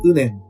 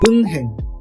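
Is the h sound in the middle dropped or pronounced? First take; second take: dropped; pronounced. First: The h sound is dropped and n links over. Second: The h sound is pronounced after the n. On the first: The speaker calls it right. "H の音は丸として考えればいいので、前の文字のパッチムが連音化され、うねんと発音されます" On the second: The speaker calls it wrong. "これは皆さんどう読みますか？"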